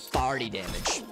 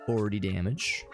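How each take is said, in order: First: Forty is said with an 'ar' vowel sound. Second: Forty has the usual 'or' vowel sound.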